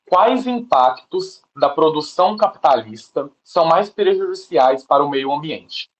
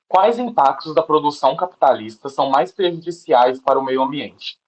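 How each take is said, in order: First: It is read at a slower, more deliberate pace. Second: It is read at a normal, quicker pace.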